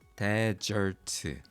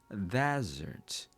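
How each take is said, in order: First: Each syllable is said evenly and fully. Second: One syllable is stressed, the other vowel reduced. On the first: The speaker calls it wrong. "한 음절씩 desert" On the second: The speaker calls it right. "슈아 현상이 일어납니다"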